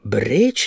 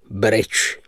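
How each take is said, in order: First: Mild surprised cry, rising sharply; exclaiming. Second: Understated cutting tone, falling. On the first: Narrator reacts to the game's name, exclaiming. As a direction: ask it with a jump up in pitch. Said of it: "vzkřikl jsem". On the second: Patron resumes after puffing his cigar, cutting. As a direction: say it short with a dry edge. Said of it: "pokračoval řezavým hlasem". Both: A narrator's reading.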